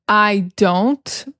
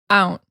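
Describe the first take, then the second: First: Both words are said separately, with the D pronounced. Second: The words run together and the D is dropped. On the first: "instead of saying" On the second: "But like together, ... we drop the D"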